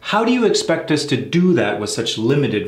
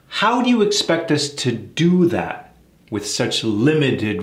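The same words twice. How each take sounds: First: The sentence is spoken quickly. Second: The sentence is spoken very slowly. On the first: "Let's speed it up" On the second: "let's do it very slow"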